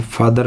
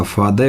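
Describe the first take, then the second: First: "फादर" with the final r sounded; Indian-style "फादर", r clearly said; wrong pronunciation. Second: "फादे" ending on a schwa, no r; r-less "फादे"; correct pronunciation. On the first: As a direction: pronounce the r ending of "फादर". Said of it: "फादर नहीं होता". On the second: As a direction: drop the final r in "फादे". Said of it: "फादे होता है". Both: Shown as a demonstration.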